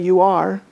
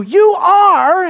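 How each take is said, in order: First: Said in the usual way. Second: High, loud YOU ARE as an accusation; shouted declaration. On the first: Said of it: "It's actually you are". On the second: Acted. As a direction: shout it as a statement. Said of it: "now standing and shouting".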